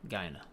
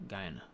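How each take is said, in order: Both takes have the same delivery.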